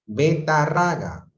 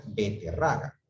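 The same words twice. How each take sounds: First: Betarraga said slowly and loud, with a in the second syllable; wrong form. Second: Beterraga said with e in the second syllable, be-te-rra-ga; correct form. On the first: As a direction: stretch out Betarraga, be-ta-rra-ga. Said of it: "es incorrecto es betarraga". (Betarraga lenta y fuerte, con a) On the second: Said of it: "lo correcto es beterraga". (beterraga con e, la forma correcta) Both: Shown as a demonstration.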